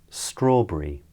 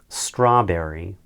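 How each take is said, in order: First: It is said in a British accent. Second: It is said in an American accent.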